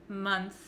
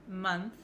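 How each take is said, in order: The two takes are said the same way.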